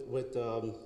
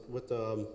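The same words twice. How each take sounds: The two takes are said the same way.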